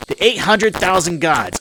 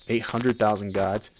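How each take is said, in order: First: High, loud and drawn-out declaration; slow, forceful, pitched-up pronouncement; indignant proclamation. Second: Said in the usual way. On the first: Acted. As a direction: proclaim it like an outraged mob boss. Same line redone in congressman's rant.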